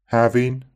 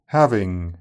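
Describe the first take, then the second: First: Having said "havin"; Having with a dropped g; Brummie Having. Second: Said in the usual way. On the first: Shown as a demonstration. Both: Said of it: "the J is normally dropped in I N G endings".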